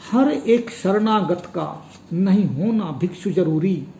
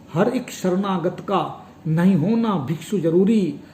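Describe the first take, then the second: The two takes are said the same way.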